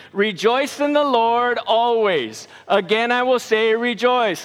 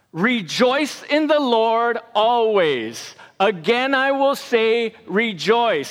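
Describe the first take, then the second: First: Said in the usual way. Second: Slow recitation. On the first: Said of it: "Say it with me". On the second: Shown as a demonstration. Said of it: "it goes like this".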